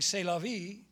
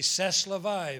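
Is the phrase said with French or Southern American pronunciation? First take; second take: French; Southern. First: It is said with a standard French pronunciation. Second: It is said with a Southern American pronunciation. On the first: "instead of saying" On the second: "he would say"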